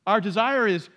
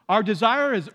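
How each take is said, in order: Both takes have the same delivery.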